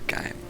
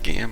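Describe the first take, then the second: First: The ending sounds like 'game', one syllable. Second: The ending sounds like 'gee-um', two syllables. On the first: "I don't know if it's Giam or Gaim" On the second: "I don't know if it's Giam or Gaim"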